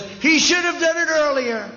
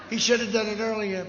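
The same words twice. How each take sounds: First: Mocking imitation. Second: Said in the usual way. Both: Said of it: "and he said".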